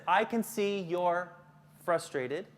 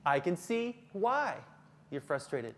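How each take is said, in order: First: Slow reading, pause before "frustrated"; deliberate, spaced-out slide reading; measured reading. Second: Slow, with "why" lifted and held; stress on WHY. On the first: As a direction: read it slowly, splitting off "frustrated". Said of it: "it says". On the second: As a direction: punch "why", pause, then drop for the rest. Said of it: "I just added the word why". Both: Shown as a demonstration.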